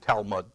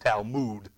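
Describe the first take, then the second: First: The last syllable is not said like 'mood'. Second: The last syllable is said like 'mood'. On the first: The speaker calls it wrong. "I was calling it Talmud" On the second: The speaker calls it right. "it's Talmud, M-O-O-D"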